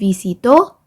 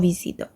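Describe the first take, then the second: First: The stress is on the final syllable. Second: The stress is on the middle syllable. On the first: "Make sure to actually pronounce the accent" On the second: "see the difference in my voice"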